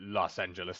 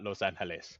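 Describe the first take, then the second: First: The name is said with an English pronunciation. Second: The name is said with a Spanish pronunciation. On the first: This is the altered, borrowed form of the name. The speaker calls it wrong. "butchered it in like Los Angeles" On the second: This is the original form of the name. The speaker calls it right. "not Los Angeles"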